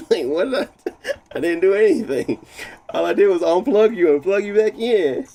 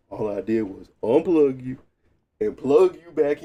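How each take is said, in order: First: Louder, higher, fed-up complaint; exasperated protest. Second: Said in the usual way. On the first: Real, not acted. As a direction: protest loudly that he did nothing. Defending himself to his PC. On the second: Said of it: "You mad at me for?".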